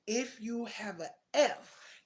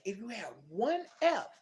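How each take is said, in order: First: "F" drawn out slowly with a rise; slow stress on F. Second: "one F" hit louder and firm, falling; stress on one F. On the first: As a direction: stretch "an F" slowly, rising. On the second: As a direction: punch "one F" hard. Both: Retold or imitated. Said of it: "they didn't say a whole bunch of Fs".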